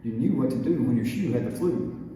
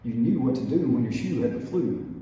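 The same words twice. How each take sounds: No difference in how they are said.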